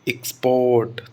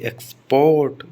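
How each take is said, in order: First: The stress is on the first syllable. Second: The stress is on the second syllable. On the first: It is a noun. "X पर stress आया है" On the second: It is a verb. "Port पर stress आया है"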